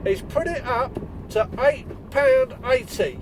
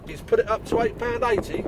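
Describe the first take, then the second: First: Slow, drawn-out reveal of the price, each word weighed; milk "eight pound eighty" for suspense, slowly and higher; a slow dramatic announcement for the audience; suspenseful reveal. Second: Mock-disbelieving echo, rising at the end; retelling his shock at the customer's price; incredulous. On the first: Shown as a demonstration. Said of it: "Can you feel the suspense in the air?". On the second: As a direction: repeat "eight pound eighty" as if you can't believe it. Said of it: "And I'm like, "What?".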